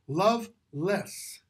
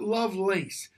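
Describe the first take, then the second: First: The second syllable sounds like 'less'. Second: The second syllable sounds like 'lace'. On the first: The speaker calls it right. "that's how you pronounce that name" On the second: The speaker calls it wrong. "It's not Lovelace"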